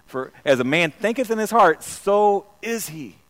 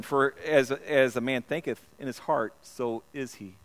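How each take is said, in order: First: Louder and slower, leaning on heart; emphatic loud repeat. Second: Said in the usual way. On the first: Shown as a demonstration. Preacher repeating the verse to the congregation, loud and emphatic. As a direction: hammer the verse home the second time. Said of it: "I can't get away from King James". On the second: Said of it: "That's King James".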